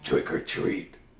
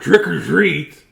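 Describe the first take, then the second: First: It is said very quietly. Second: It is said a little louder.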